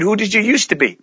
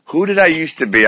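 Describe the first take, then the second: First: Put-on higher, guileless child's question; innocent young girl. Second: Said in the usual way. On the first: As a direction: ask it with a kid's innocent bluntness. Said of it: "She said". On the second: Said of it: "I just remember thinking".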